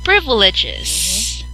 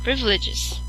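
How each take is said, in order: First: It is said with the mouth opened wide. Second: It is said with the mouth barely open. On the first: The speaker calls it right. "But if you will open your mouth a little bit wider, it will be" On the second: The speaker calls it wrong. "have your mouth open slightly, like it will be um, privileges. Okay, so it will not be that clear"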